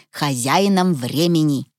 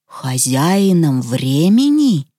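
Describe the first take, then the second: First: Said in the usual way. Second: Slow, doubtful echoing question; drawn-out incredulous repeat; disbelieving. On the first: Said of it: "переспросил Петя". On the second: A narrator's reading. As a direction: query it back with distrust. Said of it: "недоверчиво переспросил Петя".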